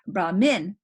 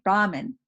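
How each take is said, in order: First: The stress is on the second syllable. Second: The stress is on the first syllable. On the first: It refers to the priest. "that is when the accent is on the second syllable" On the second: It refers to the Supreme Being. "when it's neutral"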